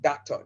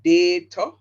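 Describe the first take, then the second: First: The first vowel is said short. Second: The first vowel is said long. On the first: This is the American way of saying it. "Them get a short sound" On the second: This is the Jamaican way of saying it. "we give the first vowel the long sound, like data"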